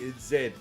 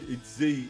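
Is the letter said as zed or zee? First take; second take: zed; zee. First: The letter is said the Australian way, zed. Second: The letter is said the American way, zee.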